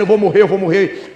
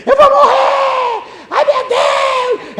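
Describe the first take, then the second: First: Said in the usual way. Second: Shrieked very high and drawn out in terror; panicked scream. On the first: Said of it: "o camarada dizendo". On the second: Retold or imitated. Terrified neighbour shrieking from his house, high panicked wail. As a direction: wail it like a man sure he is dying. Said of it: "uma pessoa gritou assim".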